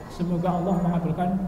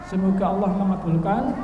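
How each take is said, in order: Both takes have the same delivery.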